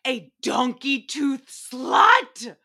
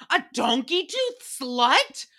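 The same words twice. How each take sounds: First: Slow, drawn-out, louder reveal of the insult; dramatic reveal. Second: Slow disbelieving question rising at the end; incredulous echo. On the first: Acted. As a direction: savor each word like a punchline. Big reveal after "are you ready?. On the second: Real, not acted. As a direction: repeat it like you can't believe it. Repeating the insult in disbelief.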